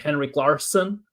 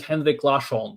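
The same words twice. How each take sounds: First: The name is said in a plain, familiar way. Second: The name is said so it sounds French. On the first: The speaker calls it right. "I just say Henrik Larsson" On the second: The speaker calls it wrong. "Sounds like a French name"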